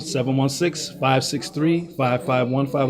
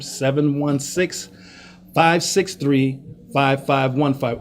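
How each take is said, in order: First: The number is read at a quick pace. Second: The number is read at a slow pace.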